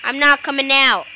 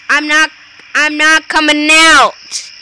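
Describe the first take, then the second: First: Said in the usual way. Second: Loud stubborn shout; loud refusal. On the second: Real, not acted. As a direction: shout it defiantly.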